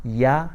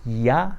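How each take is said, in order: No difference in how they are said.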